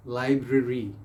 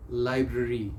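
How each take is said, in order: Both takes have the same delivery.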